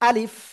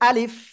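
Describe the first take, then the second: Both takes have the same delivery.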